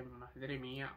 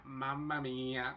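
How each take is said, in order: First: Said in the usual way. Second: Slow, drawn-out Italian mamma mía; Italian accent. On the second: Retold or imitated. Switching from Spanish to Italian, a slow Italian exclamation. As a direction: savour it like a delighted Italian. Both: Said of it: "me enamoré completamente del italiano y dije".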